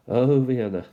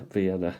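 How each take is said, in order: First: "Oh, Vienna" belted out louder, with a falling "Oh"; a playful ballad-title flourish; louder, dramatic exclamation of "Oh, Vienna"; mock dramatic "Oh, Vienna". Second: Said in the usual way. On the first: Song-title echo of Vienna.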